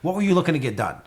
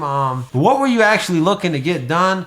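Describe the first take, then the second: First: It is said quickly and confidently. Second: It is said slowly and hesitantly.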